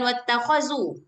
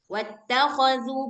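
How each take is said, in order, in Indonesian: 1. Konsonannya 'z' biasa, lidah di dalam. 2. Konsonannya 'th' bersuara, lidah dijulurkan. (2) "ujung lidah kita bertemu dengan dua gigi seri bagian atas"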